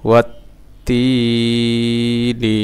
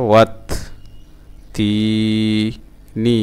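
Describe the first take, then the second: First: ওয়াত তি নি chanted closer together; sung, link the syllables, keeping তি long; sung, joined-up recitation. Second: ওয়াত, তি, নি with long gaps; broken-up syllables. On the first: Teacher joining the word for learners, measured chant. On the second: Teacher sounding out a word for learners, syllable by syllable. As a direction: hold তি and pause before নি. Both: Shown as a demonstration. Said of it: "ভাঙা ভাঙা উচ্চারণ".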